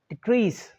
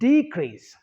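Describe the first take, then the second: First: The stress is on the second syllable. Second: The stress is on the first syllable. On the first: It is used as a verb. "second syllable is stress" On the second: It is used as a noun. "the first syllable is stressed more than the second syllable"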